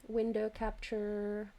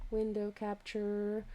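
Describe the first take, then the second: No difference in how they are said.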